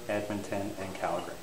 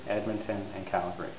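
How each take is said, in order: Both takes have the same delivery.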